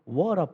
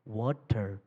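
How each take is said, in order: First: Water is said with an American accent. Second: Water is said with a clear British accent.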